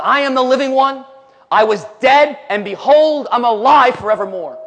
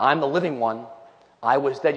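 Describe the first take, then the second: First: Loud, raised preaching voice; triumphant proclamation. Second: Said in the usual way. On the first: Acted. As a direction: proclaim it as victory over death. Preaches Jesus' declaration of being alive.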